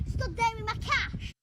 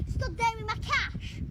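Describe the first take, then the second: No difference in how they are said.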